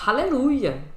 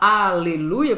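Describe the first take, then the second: First: The word starts with an audible H sound. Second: The word starts with a silent H. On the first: This is how Americans say it. "o americano fala aleluia. Com H" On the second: This is how Brazilians say it. "porque o nosso H é mudo"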